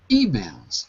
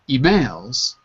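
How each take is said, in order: First: The stress is on the first syllable. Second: The stress is on the second syllable. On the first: The speaker calls it right. "First syllable" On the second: The speaker calls it wrong. "The stress is not on the second syllable in emails"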